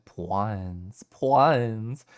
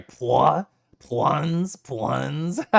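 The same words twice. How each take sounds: First: Said in the usual way. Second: "Pwans" in a northeastern accent. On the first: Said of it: "I'm probably not supposed to say it". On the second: Shown as a demonstration. Streamer trying out a new word, northeastern accent. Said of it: "say it with a northeastern accent".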